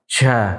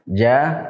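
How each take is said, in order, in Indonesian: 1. Diucapkan dengan banyak nafas yang keluar. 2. Diucapkan dengan sangat sedikit nafas yang keluar. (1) "kalau nafas banyak keluar, seperti kita ucapkan ja, ja, seperti ini, nah ini berarti kurang tepat" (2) "kalau nafasnya tidak banyak yang keluar, nah ini berarti sudah tepat"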